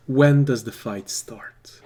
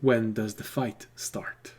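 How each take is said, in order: First: Said in the usual way. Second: Hushed, voiceless whisper. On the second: Acted. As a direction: lean in and whisper it. Mentor repeats question in whisper.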